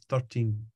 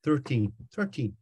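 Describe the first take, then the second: First: "Thirteen" with a flat American r and t. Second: "Thirteen" with a hint of an Irish lilt; light Irish "Thirteen"; Irish-sounding thirteen. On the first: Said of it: "he couldn't understand thirteen". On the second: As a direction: say "Thirteen" the Irish way, slightly higher. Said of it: "which sounds a bit Irish". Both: Shown as a demonstration.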